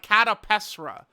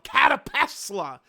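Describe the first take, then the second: First: The last syllable is said with an R sound. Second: The last syllable is said with an L sound. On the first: The speaker calls it wrong. "it's just very like soft and flaccid" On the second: The speaker calls it right. "I think L sounds cooler than R"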